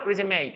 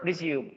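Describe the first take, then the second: First: It is pronounced as the noun résumé. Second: It is pronounced as the verb resume. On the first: It names a summary or CV. "if it's a noun" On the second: It means to start something again. "But if it's a verb"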